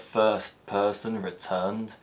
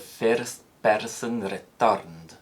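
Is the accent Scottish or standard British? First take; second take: standard British; Scottish. First: It is said in a standard British accent. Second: It is said in a Scottish accent. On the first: "a phrase like" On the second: "in Scotland is likely to be pronounced"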